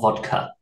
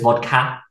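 First: The pitch moves downward on the word. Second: The pitch moves upward on the word. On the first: It is how English people say it. The speaker calls it right. "we say it with like a downwards, not an upwards" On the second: It imitates a non-native attempt at the accent. The speaker calls it wrong. "She goes vodka"

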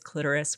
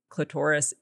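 First: It is said without rhyming with Dolores. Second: It is said so it rhymes with Dolores. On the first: This is how most people say it. "the mainstream, most commonly used pronunciation is clitoris" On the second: This is the less common way people say it. "clitoris isn't how most people say it, and that's the way you have to say it for the rhyme to work"

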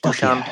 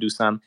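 First: The name has its native Slovak pronunciation. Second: The name has an anglicized pronunciation. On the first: "It's Dusan in Slovak language" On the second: "but I used to Dusan"

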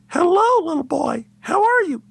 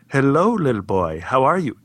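First: It is said at a higher pitch. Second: It is said at a lower pitch.

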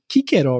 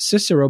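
First: The name is said in its classical Latin pronunciation. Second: The name is said in today's usual pronunciation. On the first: "the original pronunciation would have been Cicero" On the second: "these days it's pronounced Cicero"

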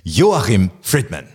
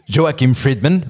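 First: The name is said with German pronunciation. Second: The name is said with French-English pronunciation. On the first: "that's very better" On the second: "I will pronounce it like a French in English person"

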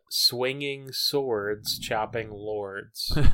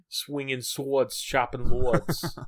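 First: It is said in the speaker's ordinary accent. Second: It is said in a New York accent.

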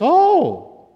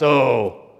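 First: It sounds happy. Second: It sounds disgusted.

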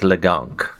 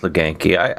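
First: The name is said French-style, without the final ee. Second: The name is said plainly, ending in an ee sound. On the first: "It's Frencher my way" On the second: "You can go with Leganky"

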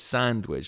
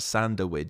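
First: The word is said with two syllables. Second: An extra vowel adds a middle syllable. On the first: The speaker calls it right. "it's two syllable word" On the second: The speaker calls it wrong. "You can't just throw in a in the middle"

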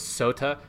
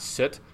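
First: The final E is pronounced as a vowel. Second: The word ends without a final vowel. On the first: The speaker calls it right. "which is all pronounced. So it's sota" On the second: The speaker calls it wrong. "not soot"

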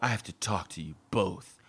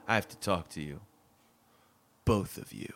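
First: It is said in a plain, ordinary way. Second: It is said in a melodramatic soap-opera way.

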